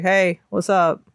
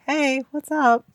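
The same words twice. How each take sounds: First: Put-on chill kid voice. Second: Put-on slightly higher kid voice; child voice. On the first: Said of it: "He was like". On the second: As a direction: say it like a seven-year-old. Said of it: "it was a child voice".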